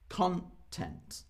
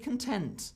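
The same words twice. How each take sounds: First: The stress is on the first syllable. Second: The stress is on the second syllable. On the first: It means information or entertainment material. The speaker calls it wrong. "not I am feeling very content" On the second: It means feeling satisfied and happy. The speaker calls it right. "I'm feeling pretty content at the moment"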